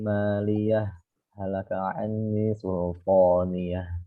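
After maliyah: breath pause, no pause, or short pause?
short pause. It stops briefly after maliyah without breathing. "Kita baca saktah"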